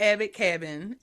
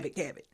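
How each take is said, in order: First: The two words are said separately and carefully. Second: The two words are run together in one blur. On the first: "I had to pronounce the word separately" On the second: "because I'm from the country, I just say Abbott Cabin"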